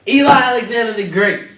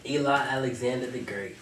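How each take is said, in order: First: It is said with forceful, battle-like energy. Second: It is said plainly, without extra energy.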